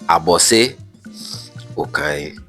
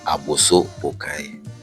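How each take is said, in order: First: The first word ends with an 'e' sound. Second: The first word ends with an 'o' sound. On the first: The speaker calls it right. "but it is Abose Okai" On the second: The speaker calls it wrong. "The name itself is not Aboso Okai"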